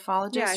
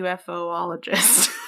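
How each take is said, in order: First: The start blends into one short syllable, 'yoof'. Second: The start is the full word 'UFO' before 'ologist'. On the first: The speaker calls it right. "I think it's ufologist" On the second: The speaker calls it wrong.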